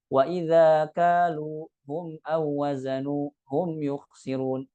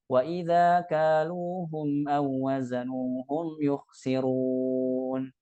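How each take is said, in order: First: "kaluhum" broken apart as kalu hum; wrong pause split. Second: Slow chanted "kaluhum" joined as one word; sung, recite "Wa idza kaluhum aw wazanuhum yukhsirun" slowly without a break; sung, smooth connected recitation. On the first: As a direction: read "wa idza kaluhum aw wazanuhum" with the pronoun cut off. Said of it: "Jangan dibaca". ("kaluhum" dipisah jadi kalu hum) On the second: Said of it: "Tapi nyambung". (sung, bacaan nyambung dilagukan pelan) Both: Shown as a demonstration.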